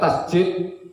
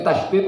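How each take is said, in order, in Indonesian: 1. Konsonan di tengah adalah bunyi j. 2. Konsonan di tengah adalah bunyi d. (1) "bukan tasjid" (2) "kalau di sini tasdid ya"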